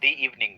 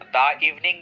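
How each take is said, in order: First: The word 'the' is said with a long 'ee' vowel. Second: The word 'the' is said with a short 'uh' vowel. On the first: The speaker calls it right. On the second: The speaker calls it wrong.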